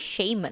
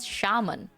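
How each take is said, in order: First: The first syllable sounds like the word shame. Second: The first syllable does not sound like shame. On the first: This is how the text-to-speech voice says it. The speaker calls it wrong. "It sounds like I'm I'm the person with shame, if you say it that way" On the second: This is how the speaker expected it to be said. The speaker calls it right. "I thought it's called shaman"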